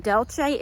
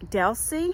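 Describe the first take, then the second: First: Delce said as Del-chay, rising; the mistaken Delce; wrong name. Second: Delcy said as DEL-see; Delcy ending in a plain ee sound; the right way, Delcy; corrected name. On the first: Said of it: "I mispronounced her name". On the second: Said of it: "I was saying Delce, it's Delcy". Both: Shown as a demonstration.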